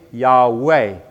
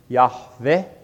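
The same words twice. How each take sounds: First: The middle consonant is a W sound. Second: The middle consonant is a V sound. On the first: This is the anglicized form. "from which we get Yahweh" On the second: This is the original Hebrew form. "if we're taking this as a V sound"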